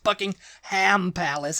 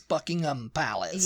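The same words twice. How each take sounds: First: The last syllable is a full 'ham'. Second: The last syllable is a reduced 'um'. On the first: The speaker calls it wrong. "It's not Buckingham Palace, ... Don't say Buckingham, there's no ham" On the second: The speaker calls it right. "it's Buckingham Palace"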